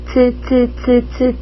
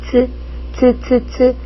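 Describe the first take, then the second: No difference in how they are said.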